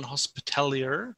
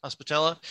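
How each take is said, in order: First: Hospitalier said French-style, ending in -ier; unsure pronunciation. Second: Hospitaller said as HOS-pi-tal-ler, English ending -ler; corrected pronunciation. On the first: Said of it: "I think is how you pronounce that". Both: Real, not acted.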